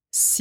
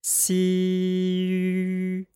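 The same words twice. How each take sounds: First: Si said as Mandarin xi with spread lips; pinyin xi. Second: Si held long and high while the lips round into xu; long level xi rounding into xu; xi gliding into xu. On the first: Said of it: "Listen to this". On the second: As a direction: stretch si and round the lips into shu. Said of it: "all I did there was to round my lips". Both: Shown as a demonstration.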